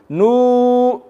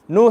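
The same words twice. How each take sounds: First: The vowel is stretched out very long. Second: The vowel is held very briefly. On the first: "too long. It can't be too long" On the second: "It can't be nu, he, ha. No. ... Not one count"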